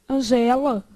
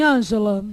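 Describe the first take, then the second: First: Angela stressed as an-GE-la, open E; stress on second syllable. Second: Ângela stressed on the first syllable, ÂN. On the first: Teacher shows the name without its accent, stressing GE in Angela. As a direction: move the stress onto GE in Angela. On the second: Teacher asks if the name takes an accent, stressing ÂN in Ângela. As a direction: hit the AN of Ângela. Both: Shown as a demonstration. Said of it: "senão ela vira uma o quê".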